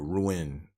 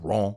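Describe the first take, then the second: First: Rouen is pronounced the English way. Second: Rouen is pronounced the French way. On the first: The speaker calls it wrong. "at first, I was pronouncing it Rouen. It's not Rouen" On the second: The speaker calls it right. "if you're in France, it's Rouen"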